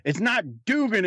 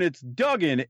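First: "Dugan" with a long oo, pitched up; higher-pitched correction, "Dugan" said as DOO-gan; Dugan, wrong pronunciation. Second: "Duggan" with a short uh vowel; correcting a name, "Duggan" said as DUG-an; Duggan, corrected pronunciation. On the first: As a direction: stress the oo in "Dugan" as the mistake. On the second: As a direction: say "Duggan" to rhyme with "rug in". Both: Retold or imitated. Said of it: "and said".

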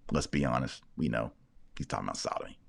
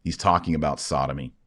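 First: Hushed aside. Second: Said in the usual way. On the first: Real, not acted. Repeats the claim, lower and hushed.

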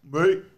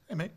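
First: Loud, high Aussie "mate"; exaggerated Australian greeting; Aussie accent. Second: "mate" tossed off, M unstressed; casual, unpunched "mate"; English "mate". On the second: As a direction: say "mate" lightly, English style. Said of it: "would never stress the M in mate". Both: Shown as a demonstration.

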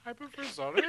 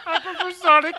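First: Little brother voice. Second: Mocking a little kid's whine; whiny little brother. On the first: Retold or imitated. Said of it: "He sound like your little brother". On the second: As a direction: play the little brother nobody listens to. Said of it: "He sound like your little brother in the backseat".

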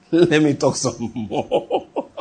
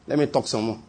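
First: Slow, drawn out through a chuckle; chuckle, then stretch the words right out; laughing drawl. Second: Low, soft murmured aside; quiet aside. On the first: Preacher teasing congregation about his digression, laughing and drawn out. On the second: Preacher excusing his digression to the congregation, quiet aside. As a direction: say it softly and low, almost to yourself. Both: Real, not acted.

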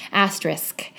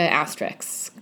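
First: "asterisk" said properly, ending in s then k; carefully fix it to "asterisk", k last; corrected. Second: "asterisk" said as "asterisks", s and k swapped; mispronounced. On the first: Correcting herself to listeners, "asterisk" said right, ending s-k. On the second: Naming her podcast to listeners, she says "asterisk" as "asterisks". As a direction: slur "asterisk" into "asterisks" with the k before the s. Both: Real, not acted. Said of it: "Ah, God".

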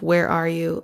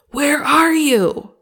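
First: Said in the usual way. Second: Much higher, louder and slow, a furious father's demand; ticked-off father shouting for his hiding children; angry dad. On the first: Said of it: "like a really angry dad". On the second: Shown as a demonstration. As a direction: bellow it like a dad whose kids broke something. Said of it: "like a really angry dad who's ticked off with his kids".

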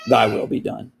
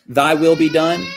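First: Lower, solemn voice of God pronouncing judgment; God answering. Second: Said in the usual way. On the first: Retold or imitated. God turning the prayer back on the one who refused him, low and grave. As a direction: hand down the words as God, low and final. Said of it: "and those to whom God says". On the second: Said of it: "Those who say to God".

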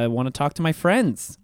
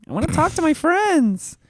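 First: Plain. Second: High silly voice. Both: Pretend. Repeated in put-on voice.

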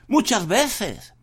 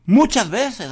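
First: Muchas drawn out slowly; slow stress on muchas. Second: Said in the usual way. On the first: Shown as a demonstration. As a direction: muchas estirado despacio. (muchas despacio y marcado)

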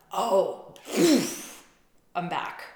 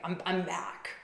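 First: Breezy bounce back. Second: Said in the usual way. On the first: Retold or imitated. Voicing partner snapping back.

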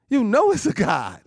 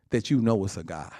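First: "You know it's a God" called out high and loud; proclaimed. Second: Said in the usual way. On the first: Shown as a demonstration. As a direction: fling the same line out to the church. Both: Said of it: "repeats line, then proclaims".

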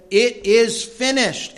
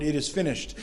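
First: Loud, high, slow cry on It is finished; solemn cry. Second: Said in the usual way. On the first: A narrator's reading. Preacher reading Jesus's last words, loud slow cry.

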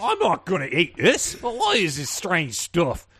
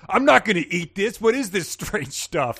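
First: High, hammed-up British accent. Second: High, loud mock-indignant complaint; bratty refusal. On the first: [name] refuses the meal politely-sounding, British accent. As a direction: drawl the complaint in mock British. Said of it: "he did it in a British accent". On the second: [name] refuses the meal his host serves, bratty. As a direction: whine it like a rude teen, dragging the end. Acts out rude teen refusing food.

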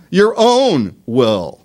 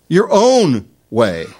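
First: Slow, weighty own will; slow emphasis. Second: Slow, weighty own way; slow emphasis. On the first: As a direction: OWN stressed in Your own will, said very slowly. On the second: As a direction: OWN stressed in Your own way, said very slowly. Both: Shown as a demonstration. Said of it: "slow emphatic repetition".

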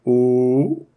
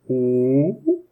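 First: Hoarse ooh sliding up to his highest pitch; high note. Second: Hoarse low ooh at the bottom of his range; low note. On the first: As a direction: strain up to the top of the range. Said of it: "that's about as high as I can go". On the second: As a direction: sing a low rough ooh. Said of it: "I'm gonna start low". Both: Shown as a demonstration.

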